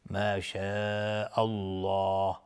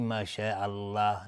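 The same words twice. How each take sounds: First: الله said with a heavy, dark L and rounded vowel; slow ما شاء الله, with الله thickened; heavy Allah. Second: الله said with a thin, light L and open front vowel; wrong light Allah. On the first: Teacher showing tafkhim after fatha, الله pronounced heavy and rounded. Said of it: "لفظ جلاله اینجا تفخیم هست". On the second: Teacher showing the mistake to avoid, الله pronounced thin and light. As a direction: say الله thinly, mouth spread instead of rounded. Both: Shown as a demonstration.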